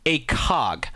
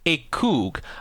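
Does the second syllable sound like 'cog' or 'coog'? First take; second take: cog; coog. First: The second syllable sounds like 'cog'. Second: The second syllable sounds like 'coog'. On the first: The speaker calls it wrong. "everyone is trying to convince people that the pronunciation is" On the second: The speaker calls it right. "the proper pronunciation is"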